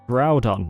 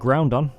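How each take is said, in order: First: It is said with no n before the d. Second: It is said with an n before the d. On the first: The speaker calls it right. "now let's do Groudon" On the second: The speaker calls it wrong. "not Groundon. As some people think"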